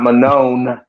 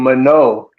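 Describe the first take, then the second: First: The name ends with a clear n sound. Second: The name ends without a clear n sound. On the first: The speaker calls it wrong. "not Manon" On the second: The speaker calls it right.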